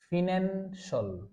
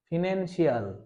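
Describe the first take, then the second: First: The ending is one reduced syllable, like 'shul'. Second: The ending is two syllables, like 'see-al'. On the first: The speaker calls it right. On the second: The speaker calls it wrong.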